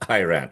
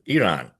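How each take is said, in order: First: The first vowel sounds like 'eye'. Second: The first vowel sounds like 'ee'. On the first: The speaker calls it wrong. "not Iran" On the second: The speaker calls it right. "the correct pronunciation is Iran"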